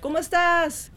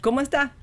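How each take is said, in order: First: It is Mexican Spanish, keeping the final s. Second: It is Puerto Rican Spanish, dropping the final s.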